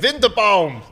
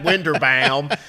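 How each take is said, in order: First: The name is said with a German accent. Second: The name is said with an American accent. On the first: The speaker calls it wrong. "I keep pronouncing his name as German" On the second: The speaker calls it right. "Do it with an American accent"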